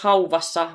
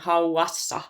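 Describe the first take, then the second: First: A v sound is heard after the au. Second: No v sound is heard after the au. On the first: The speaker calls it wrong. "mä en sanois hauvassa" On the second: The speaker calls it right. "vaan hauassa"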